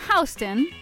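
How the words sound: Houston is pronounced the way New Yorkers say it. This is how people in New York say the name. "not Houston, like we say it here in New York City"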